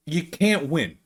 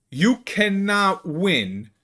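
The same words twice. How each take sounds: First: Said in the usual way. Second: "cannot" drawn out slowly and higher; emphatic restatement. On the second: Real, not acted. Creator on being Italian online, "cannot" stressed slowly. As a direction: spell out "cannot win" slowly, each word weighted.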